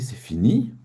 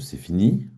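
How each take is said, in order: First: It is said in a surprised way. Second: It is said in an ironic way. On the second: "Ou alors de manière ironique?"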